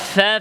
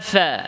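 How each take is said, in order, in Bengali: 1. "fa" ধ্বনিটি নরম ও শিথিলভাবে বলা হয়। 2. "fa" ধ্বনিটি নরম ও শিথিলভাবে বলা হয়।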